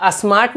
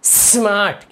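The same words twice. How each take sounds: First: "स्मार्ट" wrongly begun with a short "a", as a-smart; added initial vowel. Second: "स्मार्ट" opening straight on a long hissed s; no initial vowel. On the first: Teacher showing the common mistake, "स्मार्ट" said as asmart. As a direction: put an "uh" before the s of "स्मार्ट". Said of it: "नहीं पढ़ेंगे". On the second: Teacher modelling correct speech, "स्मार्ट" as sss-maart. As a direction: hold the s of "स्मार्ट" before "maart". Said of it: "को क्या पढ़ेंगे". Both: Shown as a demonstration.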